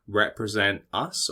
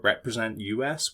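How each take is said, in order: First: The last part is said as the word us. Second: The last part is spelled out as letters U S.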